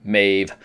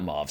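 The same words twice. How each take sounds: First: "Maeve" with a long AY vowel; corrected name pronunciation. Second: "Mauve" with a rounded vowel in place of AY; mispronounced name. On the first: Reviewer passing on a viewer correction, "Maeve" pronounced with AY. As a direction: say "Maeve" to rhyme with "wave". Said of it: "name is pronounced Maeve". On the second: Reviewer showing the wrong version, "Mauve" mispronounced like the colour. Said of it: "name is pronounced Maeve, not Mauve". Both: Shown as a demonstration.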